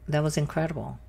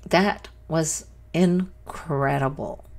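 First: Said in the usual way. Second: "That was incredible" slow, with pauses between words; slow emphasis. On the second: Real, not acted. Viewer sums up "That was incredible", slowly and emphatically. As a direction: weigh out each word of "That was incredible". Repeats verdict after taking a minute.

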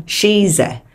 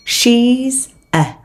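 First: SHE'S A run together as shee-za; linked sounds. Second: Said in the usual way. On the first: Shown as a demonstration. Teacher shows learners linking, joined-up SHE'S A. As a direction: join the z of SHE'S onto A. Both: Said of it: "nối âm".

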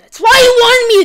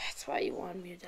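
First: Higher and much louder, outraged; loud indignant shout. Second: Breathy whisper as it dawns on you; hushed realisation. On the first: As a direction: yell it as the trick sinks in. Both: Real, not acted. Realising he was set up.

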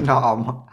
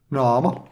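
First: Naama said through a laugh. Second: Said in the usual way. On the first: Shown as a demonstration. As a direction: let Naama break into giggles.

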